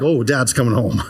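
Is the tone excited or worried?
worried. It sounds worried and full of dread.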